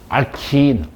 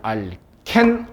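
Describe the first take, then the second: First: It ends in an English-like 'keen' sound. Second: It ends in a short 'ken' sound. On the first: It follows the English pronunciation. "외국 사람하고 얘기를 하다 보니까" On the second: It follows the local Korean reading. "나는 그냥"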